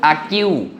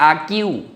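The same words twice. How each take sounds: Both takes have the same delivery.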